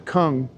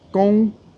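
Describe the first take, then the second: First: It has an English sound with a k start. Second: It has a Chinese sound with a high tone. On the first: "in English, we just say kung" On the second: "it's pronounced gong, like high tone"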